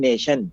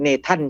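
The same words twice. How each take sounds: First: The middle consonant is a sh sound. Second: The middle consonant is a plain t sound. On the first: The speaker calls it right. "ออกเสียงเป็น" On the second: The speaker calls it wrong. "แต่เราไม่ออกเสียง"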